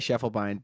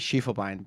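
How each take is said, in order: First: The name is pronounced with English sounds. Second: The name is pronounced with German sounds. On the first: This is how the name's owner says it. "I heard you say Schiefelbein" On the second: This is how it would be said in its original language. "in German it'd be Schiefelbein"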